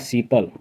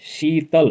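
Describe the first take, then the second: First: The word begins with an s sound. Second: The word begins with a sh sound. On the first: "अवधि में ... दांती स रूप उच्चारण होता है" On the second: "संस्कृत ... तालव्य का स"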